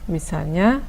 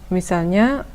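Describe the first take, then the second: The two takes are said the same way.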